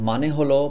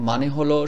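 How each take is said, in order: Both takes have the same delivery.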